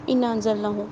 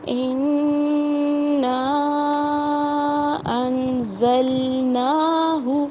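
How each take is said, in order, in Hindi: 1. 'na' स्वर छोटा और तेज़ बोला जाता है। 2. 'na' स्वर को लंबा खींचा जाता है। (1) "ये गलत है" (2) "हम इसे खींच कर पढ़ेंगे"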